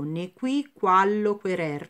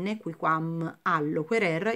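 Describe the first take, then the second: First: The ending -am is dropped and words merge. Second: The ending -am is fully pronounced. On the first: The speaker calls it right. "io leggo" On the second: The speaker calls it wrong. "ho letto nequiquam"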